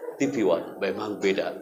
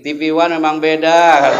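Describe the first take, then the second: First: The voice sounds pitch-shifted, like a bumper voice. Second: The voice sounds natural, without pitch shifting. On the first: The speaker calls it right. "Itu namanya pitch bender voice" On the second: The speaker calls it wrong. "tidak mungkin saya ngomongnya kayak gini"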